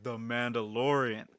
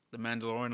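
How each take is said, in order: First: "The Mandalorian." louder and slower, landing firmly with a falling tune; firm confirmation. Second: "The Mandalorian?" asked with a rising, hopeful question tune; asking tune. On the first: Host firmly confirms "The Mandalorian." back to the stranger. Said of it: "I'm like". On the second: The stranger hopefully asks "The Mandalorian?" with a rising question. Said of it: "he's like". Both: Retold or imitated.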